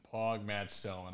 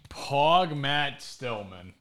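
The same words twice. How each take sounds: First: "Pog Matt Stillman" said softer and lower; soft repeat. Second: Slow drawn-out "Pog Matt Stillman"; slow hype call. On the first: Host quietly repeating the cheer to himself. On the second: Host cheering the guest in a slow drawn-out call. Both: Real, not acted.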